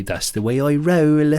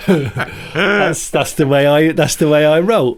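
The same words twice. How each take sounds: First: Bristol gangster quote. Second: Bristol gangster impression. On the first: Retold or imitated. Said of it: "he'd say". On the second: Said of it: "a guy ... called, uh, Steve from Bristol".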